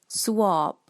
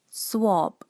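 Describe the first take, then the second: No difference in how they are said.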